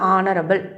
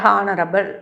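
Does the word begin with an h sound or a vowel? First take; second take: vowel; h sound. First: The word begins with a vowel sound. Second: The word begins with an h sound. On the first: The speaker calls it right. "ஆ sound வருது" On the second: The speaker calls it wrong. "ஹானரபிள் அப்படின்னு சொல்லும்போது இல்லை"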